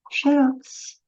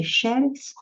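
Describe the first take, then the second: First: Xerox stressed on last syllable, xe-ROX, pitched up; oxytone. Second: Xerox stressed on first syllable, XÉ-rox; paroxytone. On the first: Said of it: "falar xerox como oxítona". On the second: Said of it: "se eu pronunciar aqui mais forte". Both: Shown as a demonstration.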